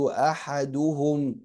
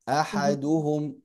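The two takes are said the same way.

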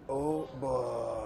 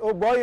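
First: The name is said in a posh manner. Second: The name is said in a plain manner. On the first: The speaker has money. "If you have a bit of money, you call me Oh boy" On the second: The speaker is poor. "if you're a poor guy like me, you call me Oh boy"

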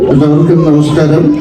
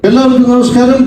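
First: The greeting is said in a calm, relaxed manner. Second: The greeting is said with much more energy. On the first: This is how the actor talks at a live event. "ഈ രീതിയിലായിരിക്കും നമ്മുടെ ലാലേട്ടൻ ലൈവായിട്ട് സംസാരിക്കാം" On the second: This is how the actor talks when hosting a TV show. "അല്പം കൂടെ energy കൊടുത്താൽ നമുക്ക് big ബോസിലെ ലാലേട്ടനെ കാണാം"

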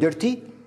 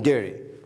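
First: The middle t is pronounced clearly. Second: The middle t is very light, almost gone. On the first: "ممكن تكون ديرتي" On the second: "تي خفيف جدا بدل ديرتي"

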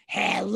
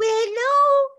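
First: It is said in a deep, scary bear voice. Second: It is said in a high, squeaky pig voice.

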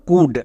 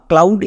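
First: Silent l, short oo vowel, like cood. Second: Spoken l, ow vowel, like clowd. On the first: The speaker calls it right. "তাহলে এর উচ্চারণ কী দাঁড়ালো?" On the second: The speaker calls it wrong. "একে আমরা কেউ কাউড বা ক্লাউড এরকম উচ্চারণ করব না"

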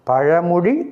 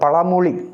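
First: The second consonant is a retroflex zh sound. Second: The second consonant is a plain l sound. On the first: The speaker calls it right. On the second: The speaker calls it wrong.

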